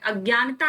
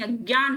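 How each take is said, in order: First: अज्ञानता with an extra final "taa"; the mistaken long form अज्ञानता; wrong form. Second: अज्ञान ending on a closed "n"; no "-taa" after अज्ञान; the short correct form अज्ञान. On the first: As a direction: add "-taa" at the end of अज्ञानता. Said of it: "अज्ञानता नहीं". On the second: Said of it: "अज्ञान होता है". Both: Shown as a demonstration.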